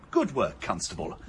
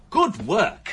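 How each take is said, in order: First: Said in the usual way. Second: Good work, higher and louder, rising on Good; emphatic praise. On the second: Acted. Inspector praising the constable again, higher and louder with enthusiasm. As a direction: repeat it with real enthusiasm. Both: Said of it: "I never thought I'd say this".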